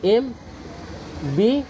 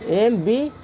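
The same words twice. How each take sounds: First: Letter by letter, with long pauses; teacher spelling it out slowly for the students, slow; spelled out slowly. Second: Said in the usual way. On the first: Shown as a demonstration. M and B said as separate letters, each held apart. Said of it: "तो देखिए M कैसे लिखते हैं". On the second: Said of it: "ए ऐसे लिखते हैं आप लोग".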